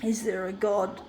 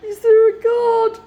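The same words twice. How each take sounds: First: Quiet. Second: Much higher and louder, crying out; anguished shout. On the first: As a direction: lower and softer, almost to himself. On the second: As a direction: hurl the question at the sky. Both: Real, not acted. Repeats question, quiet then shouted.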